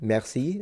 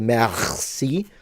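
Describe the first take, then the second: First: The R sound is soft and light. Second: The R sound is strong and exaggerated. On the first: The speaker calls it right. "I would just say" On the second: The speaker calls it wrong. "you don't have to say"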